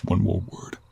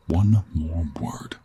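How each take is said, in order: First: Terse, restrained warning; controlled first warning; stern warning. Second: Very slow, husky half-whispered threat; slow menacing warning. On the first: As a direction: warn them off, voice held in check. Warns the captive, first time. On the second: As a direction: space out each word as a threat. Repeats the warning to captive. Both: Acted.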